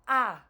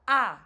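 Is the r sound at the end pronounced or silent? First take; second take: silent; silent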